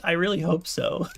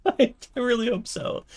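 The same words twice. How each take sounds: First: Said in the usual way. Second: High giggly repeat, laughing. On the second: Real, not acted. Laughing repeat, much higher.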